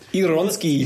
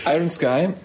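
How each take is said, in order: First: It is said as one word, like a Polish surname. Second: It is said as two English words. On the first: The speaker calls it wrong. "ich habe mir meinen polnischen Nachbarn im Kino angeschaut" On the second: The speaker calls it right. "jetzt sage ich doch mal richtig"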